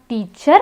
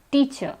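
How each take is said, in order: First: Teacher ending in a clear R; teacher with the final R pronounced; R wrongly sounded. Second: Teacher ending on an open vowel; teacher with no final R; silent R. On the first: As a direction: say teacher as TEE-cherr. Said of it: "It's not teacher". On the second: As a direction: say teacher as TEE-chuh. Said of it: "the R is silent". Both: Shown as a demonstration.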